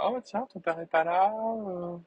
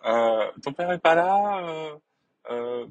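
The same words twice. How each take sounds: First: High mock mum voice, admittedly bad; man doing a woman's voice. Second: Slower, louder, high mock mum voice; retry the mother, drawn out and high; man doing a woman's voice. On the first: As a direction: badly imitate his mother, pitched high. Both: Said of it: "Je m'y mets très mal, ma mère".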